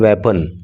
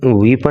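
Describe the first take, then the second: First: The first vowel is a short 'e'. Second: The first vowel is a long 'ee'. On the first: The speaker calls it right. "इसको बोलोगे वेपन" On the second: The speaker calls it wrong. "इसको आप वीपन नहीं बोलोगे"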